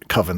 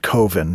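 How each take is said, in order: First: The word rhymes with oven. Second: The first vowel differs from the vowel in oven. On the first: It is the usual way to say the word. "Coven sounds like oven" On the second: It avoids sounding like the word oven. "he pronounces it Coven because he doesn't like that Coven sounds like oven"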